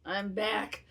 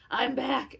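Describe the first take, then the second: First: Said in the usual way. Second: Louder triumphant repeat; louder second I'm back, celebrating. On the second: Retold or imitated. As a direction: crow it out like a victory. Repeats triumphant line twice.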